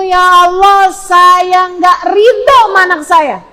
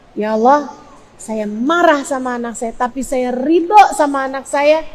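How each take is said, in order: First: Raised, louder, drawn-out outburst; rejecting prayer. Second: Subdued plea of acceptance; accepting prayer. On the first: Parent disowning the child before God, raised forceful cry. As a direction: push it out high and slow. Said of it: "Jangan sampai keluar dari mulutmu". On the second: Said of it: "Doa begitu". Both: Shown as a demonstration.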